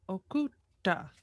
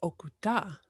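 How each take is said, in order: First: "Okutta" broken by a held t; stressed double consonant. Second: "Okuta" in one smooth run, single t; no hold on the t of "Okuta"; relaxed single consonant. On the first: Learner repeats the word to kill, stressed consonant. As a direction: pause on the t of "Okutta" before releasing it. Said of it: "if you stress it". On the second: Learner repeats the word to release, relaxed consonant. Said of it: "say it relax". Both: Shown as a demonstration.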